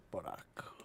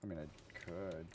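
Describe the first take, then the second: First: Low, whispered afterthought; hushed, teasing whisper; whispered aside. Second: Said in the usual way. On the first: Pretend. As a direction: whisper it like a secret option.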